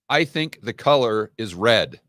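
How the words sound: The voice falls at the end like a statement. It is said with confidence as a plain statement. The speaker calls it right. "they can't just make a statement"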